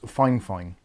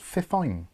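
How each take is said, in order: First: It is said as two full words, fine fine. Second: It is said as one word, fi-fine. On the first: The speaker calls it wrong. "there's no way on God's green earth that says Fine Fine" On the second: The speaker calls it right. "It says Fifine"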